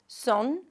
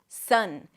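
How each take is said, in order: First: The vowel sounds more like 'oh'. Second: The vowel is a relaxed 'uh' sound. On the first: The speaker calls it wrong. "Some people might pronounce it more like O" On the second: The speaker calls it right. "then the uh, as in cup"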